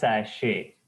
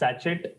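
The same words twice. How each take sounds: First: The final T sound is silent. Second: The final T sound is pronounced. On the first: The speaker calls it right. "T is silent, like buffet" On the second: The speaker calls it wrong. "not sachet"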